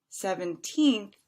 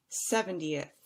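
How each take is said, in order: First: Put-on "Seventeenth" lifting to a loud, long "teenth"; long stressed TEENTH. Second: "seventieth" with SEV first, falling short end. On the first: Teacher repeating the contrast, "Seventeenth" with stretched teenth. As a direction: stretch the last syllable of "Seventeenth". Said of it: "a little bit longer". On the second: Teacher repeating the contrast, "seventieth" with short falling ending. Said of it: "than the second one". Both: Shown as a demonstration.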